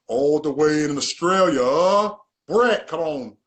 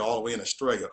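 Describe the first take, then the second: First: Loud, slow, drawn-out hype call; hyped announcement. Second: Said in the usual way. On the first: Real, not acted. Host introducing his Australian guest to viewers, hyped and drawn out. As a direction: stretch it out big like introducing a star guest.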